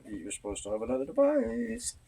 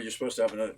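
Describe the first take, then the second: First: Rising high on "another device"; singsong reminder. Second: Said in the usual way. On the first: Real, not acted. Reminding someone they're supposed to have another device, singsong.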